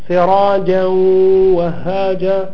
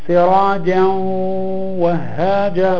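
The two takes are said the same way.

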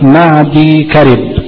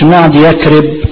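First: The second part is said as 'karib'. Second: The second part is said as 'yakrib'. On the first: The speaker calls it right. "لا معدي كرب" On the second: The speaker calls it wrong. "ما تقولش معدي يكرب"

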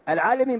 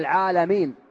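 First: The vowel after the L is i. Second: The vowel after the L is a. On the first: It means scholars who know something. The speaker calls it wrong. "العالمين بالكسر" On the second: It means everything other than God. The speaker calls it right. "بالفتحة"

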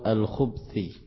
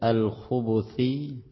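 First: The b is followed by no vowel. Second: The b is followed by a u vowel. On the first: "Kalau disukun al-khubthi" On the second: "dengan ba yang disukun atau di dhammah"

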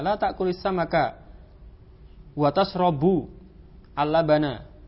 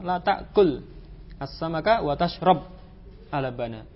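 First: Tashrab ends with a final u vowel. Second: Tashrab ends without a final u vowel. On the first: "tashrabu dengan dhammah. Dia marfu" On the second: "Karena tadi dibaca majzum"

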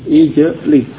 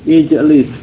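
The two takes are said the same way.

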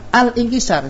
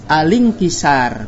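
First: A glottal stop separates 'al' from the vowel. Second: The 'l' links straight into the following vowel. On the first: The speaker calls it wrong. "bukan alingkisar, salah" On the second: The speaker calls it right. "maka kita baca alingkisar"

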